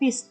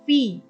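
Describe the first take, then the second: First: The ending is not said as a Y sound. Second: The double L is said as a Y sound. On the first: The speaker calls it wrong. "bacanya bukan fis" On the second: The speaker calls it right. "tetapi fi. Double L dibaca Y"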